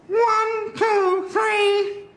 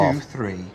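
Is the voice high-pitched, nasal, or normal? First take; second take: nasal; normal. First: It is said in a high, nasal voice. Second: It is said in a normal male voice.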